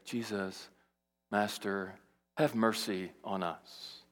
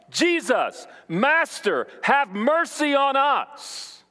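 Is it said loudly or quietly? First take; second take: quietly; loudly. First: It is said quietly and reservedly. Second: It is cried out loudly.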